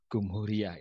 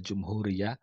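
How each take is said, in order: First: The word begins with a hard 'g' sound. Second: The word begins with a 'j' sound. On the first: This is the colloquial Egyptian form. "jim diucapkan dengan gim" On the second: This is the standard literary form. "perbedaan antara bahasa Fusha dengan Ameya"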